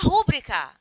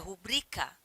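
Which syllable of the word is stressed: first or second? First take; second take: first; second. First: The stress falls on the first syllable. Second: The stress falls on the second syllable. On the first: The speaker calls it wrong. "Muita gente chama rúbrica" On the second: The speaker calls it right. "A palavra é rubrica"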